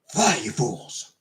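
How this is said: It is said in a stage whisper.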